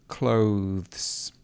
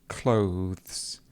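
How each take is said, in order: The two takes are said the same way.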